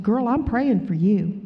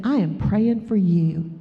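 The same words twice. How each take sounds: First: Said in the usual way. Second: Slow, deliberate "I am praying for you"; emphatic repeat. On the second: Retold or imitated. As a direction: spell out "I am" in full, unhurried. Repeats it after "What?.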